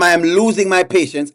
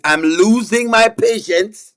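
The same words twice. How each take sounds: First: Said in the usual way. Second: Slow, drawn-out warning, rising at the end; losing patience. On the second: Pretend. Host warning the laughing chat, patience slowly running out. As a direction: stretch it out as a mock threat.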